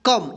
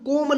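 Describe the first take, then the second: First: The vowel is a short 'uh' sound. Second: The vowel is a long 'oh' sound. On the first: The speaker calls it right. "इसका क्या होगा, कम" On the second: The speaker calls it wrong. "कोम नहीं होगा"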